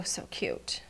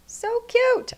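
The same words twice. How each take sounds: First: "so cute" breathed out unvoiced, almost to herself; soft aside, "so cute" barely voiced; hushed whisper. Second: High gushing "So cute!" over a finished card; excited squeal. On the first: Murmured before the loud repeat. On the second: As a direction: burst out "So cute!" in high delight. Bursts out after whispering it. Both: Real, not acted.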